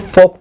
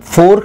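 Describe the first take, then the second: First: The r sound is left out of the word. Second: The r sound is pronounced in the word. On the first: The speaker calls it right. "इसको फोक पढ़ते हैं और इसमें silent होता है" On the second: The speaker calls it wrong. "ये फोर्क नहीं है"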